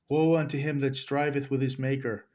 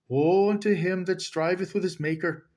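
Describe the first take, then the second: First: It is read in the speaker's ordinary accent. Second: It is read in a put-on Irish accent.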